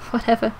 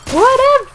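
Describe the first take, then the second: First: Said in the usual way. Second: Very high, loud whine; squealed dismissal; exaggerated dismissal. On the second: Second take, screamed.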